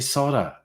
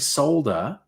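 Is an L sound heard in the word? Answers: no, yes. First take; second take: no; yes. First: The L sound is left out of the word. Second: The L sound is pronounced in the word. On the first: The speaker calls it wrong. "they say solder" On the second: The speaker calls it right. "there's a fucking L there"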